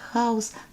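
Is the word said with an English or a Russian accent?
English. It is said with a plain English accent. "the English word house"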